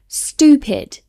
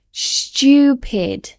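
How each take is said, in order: First: STUPID as stoo-pid, no Y; American pronunciation. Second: STUPID with a Y after the T; British Y sound. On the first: Teacher imitating Americans, STUPID without the Y. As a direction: say stupid with a plain oo. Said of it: "exactly as it's spelled". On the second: Teacher demonstrating the added Y in STUPID. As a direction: say stupid as styoo-pid. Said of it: "we add a Y sound". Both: Shown as a demonstration.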